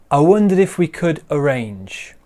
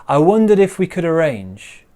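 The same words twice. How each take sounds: The two takes are said the same way.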